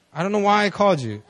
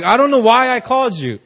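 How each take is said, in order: First: Said in the usual way. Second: High, loud mimicry of a baffled caller; hammed-up bewildered friend; helpless confession, imitated. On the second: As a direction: pitch it up, playing helpless.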